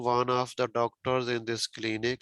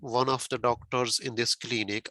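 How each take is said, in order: First: The pitch stays flat and monotonous throughout. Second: The pitch moves up and down throughout. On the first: The speaker calls it wrong. "same tone. Okay, does not go up, does not go down" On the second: The speaker calls it right. "they go up, they go down"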